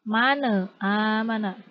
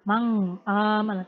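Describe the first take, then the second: First: The n bounces with an added vowel. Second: The n blurs into a nasal ng sound. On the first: "Tidak tidak dipantulkan" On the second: "tidak dileburkan ... Tidak seperti itu ya"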